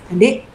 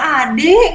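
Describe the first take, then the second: First: "Adik" lebih rendah dengan nada bertanya yang naik di akhir; nada lembut. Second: "Adik" dipanggil agak tinggi dan tegas; nada menegur. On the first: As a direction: panggil "Adik" dengan tenang, seperti bertanya. ("Adik" diucapkan rendah dan lembut, tidak menegur) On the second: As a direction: panggil "Adik" dengan nada menegur yang naik. ("Adik" diucapkan lebih tinggi, seperti menegur) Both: Shown as a demonstration. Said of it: "intonasi, eh, suara kita kah".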